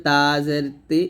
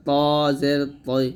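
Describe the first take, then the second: First: Light t and clean i in "তা জের তি"; thin ta. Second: Heavy t, rounded before i in "ত জের তৈ"; thick to. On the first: Teacher contrasting two letters, lightly pronounced "তা জের তি". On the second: Teacher contrasting two letters, heavily pronounced "ত জের তৈ". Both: Shown as a demonstration. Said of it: "মোটা হবে".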